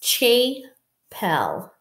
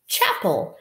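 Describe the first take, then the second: First: The first vowel is a long A sound. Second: The first vowel is a short A sound. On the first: The speaker calls it wrong. "I've never heard of a chapel" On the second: The speaker calls it right. "let's try reading this with a short A"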